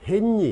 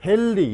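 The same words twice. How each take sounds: First: 헨리 misread as "헨니"; wrong ㄴㄴ pronunciation. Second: 헨리 said as "헬리"; ㄹㄹ pronunciation. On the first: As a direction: say 헨리 with double N. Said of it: "이렇게 읽지 말란 말이야". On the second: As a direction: say 헨리 with a long double L. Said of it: "이렇게 읽어야지". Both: Shown as a demonstration.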